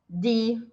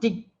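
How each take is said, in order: First: The i vowel is long and drawn out. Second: The i vowel is short and clipped. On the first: The speaker calls it right. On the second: The speaker calls it wrong. "e não di"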